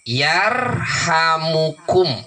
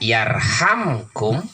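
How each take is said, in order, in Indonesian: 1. Ada vokal u pendek di antara m dan k. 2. Huruf m langsung bertemu k tanpa vokal. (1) "Tah ti dieu sae keneh dibaca rofa cenah kitu" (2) "Kahiji tiasa dibaca yarhamkum ya. Lantaran dijajemkeun"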